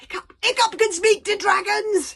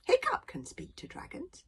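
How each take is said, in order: First: High, full-voiced shout; very loud shout. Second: Small, high, hushed voice; very quiet. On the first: Fishlegs announces his friend's gift to everyone, very loud shout. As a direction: shout it out to the whole crowd. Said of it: "shouted Fishlegs very loudly indeed". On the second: Acted. Fishlegs pipes up from the crowd, very quietly. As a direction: pipe up softly from the crowd. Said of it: "said Fishlegs very quietly".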